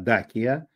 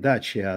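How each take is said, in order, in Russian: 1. Средний согласный — это звук k. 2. Средний согласный — это звук ch. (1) "я все время отстаивал неправильную вещь" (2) "не Дачия"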